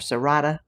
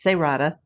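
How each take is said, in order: First: The name is said with Spanish pronunciation. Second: The name is said with Spanish pronunciation.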